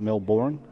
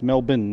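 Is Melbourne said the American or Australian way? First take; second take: American; Australian. First: It is said the American way. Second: It is said the Australian way. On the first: The speaker calls it wrong. "not Melbourne. For those of you playing at home in America" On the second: The speaker calls it right. "So it's pronounced Melbourne"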